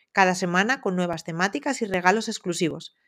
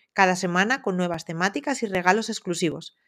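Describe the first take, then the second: The two takes are said the same way.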